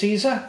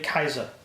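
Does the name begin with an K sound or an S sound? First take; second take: S sound; K sound. First: The name begins with an S sound. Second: The name begins with a K sound. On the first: The speaker calls it wrong. "we pronounce it wrong" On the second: The speaker calls it right. "the C is actually K"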